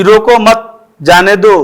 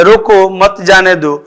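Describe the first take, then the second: First: "रोको मत" as one group, then "जाने दो"; raised "रोको मत", short break, "जाने दो"; pause after मत. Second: "रोको", brief break, then "मत जाने दो" together; short halt right after "रोको"; pause after रोको. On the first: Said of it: "अगर मौखिक रूप से कह देते हैं". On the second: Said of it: "रोकना है या जाने देना". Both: Shown as a demonstration.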